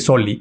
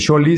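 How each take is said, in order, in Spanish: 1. La palabra empieza con un sonido s. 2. La palabra empieza con un sonido sh. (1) "se dice Soli" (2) "no se dice Sholi"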